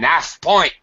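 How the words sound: The h at the start of half is dropped. "a British person say"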